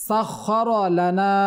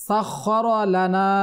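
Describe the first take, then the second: The two takes are said the same way.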